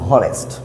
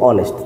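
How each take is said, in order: First: The word begins with an audible h sound. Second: The word begins directly with a vowel sound. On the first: The speaker calls it wrong. "আমরা এখানে বলতে পারবো না যে হনেস্ট" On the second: The speaker calls it right. "আমরা বলবো অনেস্ট"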